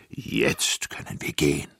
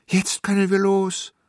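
First: Unhurried giant conclusion; satisfied giant. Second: Put-on high, loud, eager child voice; excited kid calling out; child's joyful call. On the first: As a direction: draw it out like a big giant. Giant says they can go. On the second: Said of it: "rief ich". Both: A narrator's reading.

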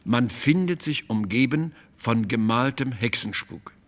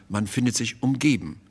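First: Said in the usual way. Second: "umgeben" leaned on, falling at the end; stress on umgeben. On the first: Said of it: "Der genaue Satz lautete". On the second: Shown as a demonstration. Malzahn driving home his reading to the painter, stressing "umgeben". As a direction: punch the word "umgeben" to make the point. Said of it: "Das ist doch deutlich genug".

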